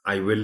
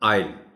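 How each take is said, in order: First: It is said as two full words. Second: It is said as one short syllable. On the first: The speaker calls it wrong. "आई विल नहीं पढ़ा जाएगा" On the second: The speaker calls it right. "ये short form है आई विल की, तो इसको पढ़ा जाएगा आइल"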